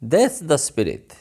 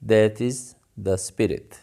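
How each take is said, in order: First: That is is joined into one word, that's. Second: That is is said as two full words.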